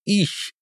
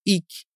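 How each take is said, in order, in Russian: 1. Произносится по-южнонемецки, в региональной манере. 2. Произносится по-берлински, в региональной манере. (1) "На юге немецкоязычных стран в большинстве случаев оно произносится как" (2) "В Берлине распространен такой вариант произнесения как"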